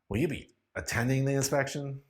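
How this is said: The voice sounds irritated and annoyed. "using an irritated voice"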